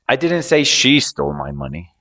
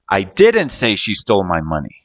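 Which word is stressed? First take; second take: she; didn't. First: The word "she" is stressed. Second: The word "didn't" is stressed. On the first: Someone other than her took it. "I was talking about someone else, not her" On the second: The speaker denies saying it at all. "So I'm denying the action of saying it"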